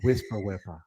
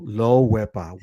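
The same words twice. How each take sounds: First: Wepa said very softly and low, near a whisper. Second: Wepa dropped low and a bit soft. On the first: Host offering the guest a whispered wepa, very soft. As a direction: hush the wepa right down. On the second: Host suggesting a toned-down wepa to guest, low voice. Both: Shown as a demonstration.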